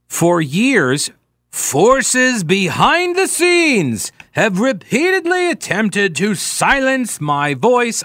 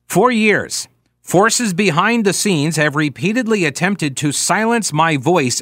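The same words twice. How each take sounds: First: It is read in a grand, dramatic manner. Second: It is read in a plain, ordinary manner. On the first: "I don't know why I'm reading it like that" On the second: "I'll just read it"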